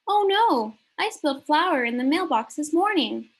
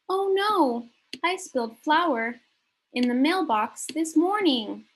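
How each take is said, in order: First: The sentence is read quickly and fluently. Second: The sentence is read more slowly.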